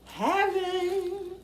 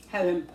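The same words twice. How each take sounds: First: Heaven drawn out, much higher; high ecstatic heaven. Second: Said in the usual way. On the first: Real, not acted. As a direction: float it up high in bliss. Tasting food, then sings heaven.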